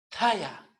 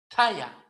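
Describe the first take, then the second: The two takes are said the same way.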